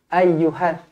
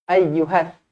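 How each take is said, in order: The two takes are said the same way.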